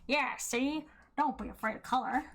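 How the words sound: It is said in a put-on gangster voice.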